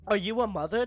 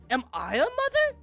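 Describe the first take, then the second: First: Said in the usual way. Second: Much higher squeaky question; high confused. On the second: Shown as a demonstration. Streamer replaying Kyle's confused question, much higher. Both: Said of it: "I like how he goes from".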